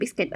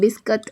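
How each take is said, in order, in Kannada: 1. ಇದನ್ನು ಇಂಗ್ಲಿಷ್ ಉಚ್ಚಾರಣೆಯಲ್ಲಿ ಹೇಳಲಾಗಿದೆ. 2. ಇದನ್ನು ದಿನನಿತ್ಯದ ಕನ್ನಡ ಉಚ್ಚಾರಣೆಯಲ್ಲಿ ಹೇಳಲಾಗಿದೆ. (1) "ಇಂಗ್ಲೀಷಲ್ಲಿ ಬಿಸ್ಕೆಟ್ ಅಂತಾರೆ" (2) "ಕನ್ನಡದಲ್ಲಿ ಆಸ್ ಯೂಶುವಲ್ ನಾವು ಹೇಗೆ ಹೇಳ್ತೀವಿ ಬಿಸ್ಕತ್ ಅಂತ"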